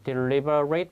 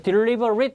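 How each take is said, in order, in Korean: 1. 마지막 음절은 'eight'처럼 발음됩니다. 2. 마지막 음절은 약하게 줄어서 발음되며, 'eight'처럼 들리지 않습니다. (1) "at는 발음이 eight로 발음되면 그런 동사입니다" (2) "이렇게 발음되면은 그런 형용사가 되고요"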